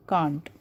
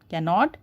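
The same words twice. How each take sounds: First: "can't" as one syllable with a long ah; contracted form. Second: Said in the usual way. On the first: Shown as a demonstration. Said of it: "contracted form of cannot is". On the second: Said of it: "contracted form of cannot".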